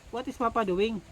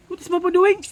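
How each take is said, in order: First: Said in the usual way. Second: Called out loud and high, rising at the end; loud, higher question. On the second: Real, not acted. Mother repeats question to child. (kusog ug taas nga pangutana)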